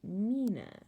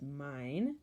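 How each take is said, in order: First: The vowel sounds like ee, with a final vowel. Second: The vowel sounds like eye, no final vowel. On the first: This is the Middle English form. "in Middle English we would say mina" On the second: This is the modern English form. "this word is mine"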